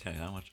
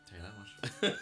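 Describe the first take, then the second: First: It is said in a plain, casual way. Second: It is said in an exaggerated, dramatic way.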